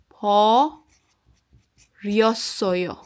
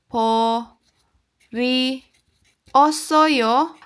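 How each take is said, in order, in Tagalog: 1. Ang dalawang huling patinig ay pinagsasama sa isang pantig na may glide. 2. Ang dalawang huling patinig ay binibigkas na magkahiwalay na pantig. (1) "So mahimo siyang po ryosoyo" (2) "instead nga mahimo siyang po ri osoyo"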